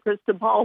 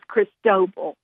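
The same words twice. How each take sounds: First: The stress is on the first syllable. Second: The stress is on the middle syllable. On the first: This is how the name looks when read. "It looks like Cristobal, like you said" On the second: This is the official pronunciation. "so the middle part is the emphasis"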